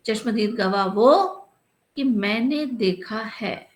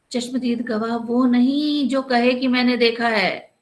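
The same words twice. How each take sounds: First: Slow, rising on वो, then मैंने देखा है drawn out; stress on वो. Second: Slow, with नहीं hit hard and falling; stress on नहीं. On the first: Matadeen teaching the kotwal the right meaning, slow. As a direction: pause after वो, then spell out कि मैंने देखा है. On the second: Matadeen teaching the kotwal, stressing नहीं. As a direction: lean on नहीं as the wrong meaning. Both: Shown as a demonstration. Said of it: "चश्मदीद गवाह किसे कहते हैं".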